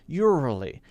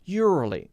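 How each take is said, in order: First: The middle consonant is made too soft and gentle. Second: The middle consonant is made too soft and gentle.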